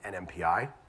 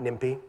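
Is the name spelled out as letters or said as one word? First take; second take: letters; one word. First: The name is spelled out letter by letter. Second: The name is said as one word. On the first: The speaker calls it right. "Said it right?" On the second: The speaker calls it wrong. "Not NIMPY"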